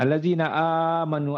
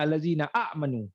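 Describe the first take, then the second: First: Amanu starts with a smooth long vowel. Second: Amanu has a glottal catch after the first vowel. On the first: This is the changed form that sounds smoother. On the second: This is the original form.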